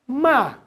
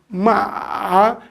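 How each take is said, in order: First: The pitch is struck hard, like a blow. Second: The pitch dips slightly and then rises. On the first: It means to scold or insult. "agora com uma batida forte" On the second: It means horse. "ele desce um pouquinho e depois sobe"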